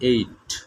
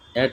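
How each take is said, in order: First: The vowel is long, like in 'eight'. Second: The vowel is short, like in 'at'. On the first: The speaker calls it right. "এটার উচ্চারণ হবে এইট" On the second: The speaker calls it wrong. "অ্যাট হবে না"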